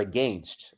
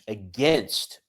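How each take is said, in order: First: It is said in a Canadian accent. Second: It is said in an ordinary American accent.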